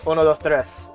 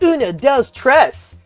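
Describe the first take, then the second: First: Counted in a plain, natural Spanish pronunciation. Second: Counted in an exaggerated, put-on Spanish accent. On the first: "But I know it's" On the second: "I do that fake voice with it"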